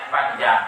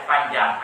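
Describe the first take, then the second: Both takes have the same delivery.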